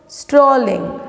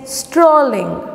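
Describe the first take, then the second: No difference in how they are said.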